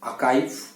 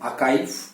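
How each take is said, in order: First: The middle consonant is a k sound. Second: The same.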